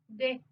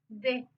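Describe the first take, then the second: The two takes are said the same way.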